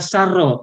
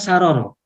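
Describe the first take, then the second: First: The repeated consonant is held together as one double. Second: The repeated consonant is split with a vowel between. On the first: The speaker calls it right. "yang digunakan adalah sarro" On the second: The speaker calls it wrong. "bukan saroro"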